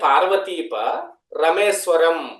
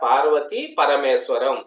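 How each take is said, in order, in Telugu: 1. విరామం 'pa' అక్షరానికి తర్వాత వస్తుంది. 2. విరామం 'pa' అక్షరానికి ముందు వస్తుంది. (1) "ఒక అక్షరాన్ని ముందుకు కలిపి గ్యాప్ ఇస్తే" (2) "ఒక చిన్న గ్యాప్ ఎక్కడ"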